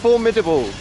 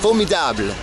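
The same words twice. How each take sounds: First: It is pronounced with an English accent. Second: It is pronounced with a French accent. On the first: "saying formidable like in English" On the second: "She said formidable"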